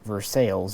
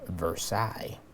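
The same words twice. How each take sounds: First: It is said with the Kentucky local pronunciation. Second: It is said with the usual standard pronunciation.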